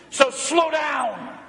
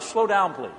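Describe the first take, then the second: First: Slow, drawn-out shouted "slow down"; blunt order. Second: Gentle request. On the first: Retold or imitated. Wife's blunt warning to her speeding husband, shouted. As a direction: hammer each word home. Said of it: "She was blunt". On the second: Pretend. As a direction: ask it kindly and politely. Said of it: "would you please consider".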